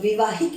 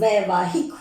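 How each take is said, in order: First: The first vowel is a short 'i'. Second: The first vowel is 'ai'. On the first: The speaker calls it wrong. "विवाहिक नहीं" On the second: The speaker calls it right. "वैवाहिक होगा"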